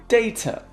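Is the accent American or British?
British. It is said with a British accent.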